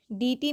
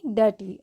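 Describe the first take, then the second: First: डी टी said "dee-tee"; wrong vowel. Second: डर्टी as "duh-tee"; correct vowel. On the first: Teacher shows what not to say, डी टी as "dee-tee". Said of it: "डी टी नहीं". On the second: Teacher corrects the learners, डर्टी with "uh" first. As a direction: open "uh" in the first syllable of डर्टी. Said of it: "इसको क्या बोलते हैं?". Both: Shown as a demonstration.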